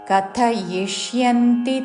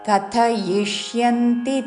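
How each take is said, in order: Both takes have the same delivery.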